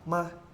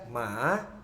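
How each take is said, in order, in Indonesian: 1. Diucapkan dengan nada netral. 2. Diucapkan dengan nada ketiga. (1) "Terus nada netral" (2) "nada tiga"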